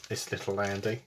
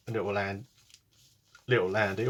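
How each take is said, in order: First: Said in the usual way. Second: Talking through hiccups; words broken by a hiccup. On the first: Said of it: "I've got hiccups". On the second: Real, not acted. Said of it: "Oh, sorry, I've got hiccups".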